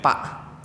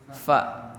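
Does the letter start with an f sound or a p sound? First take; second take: p sound; f sound. First: It starts with a p sound, lips closed. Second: It starts with an f sound, teeth on lip. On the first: The speaker calls it wrong. "fa tuh malah jadi pa" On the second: The speaker calls it right. "susah dalam menyebutkan huruf fa"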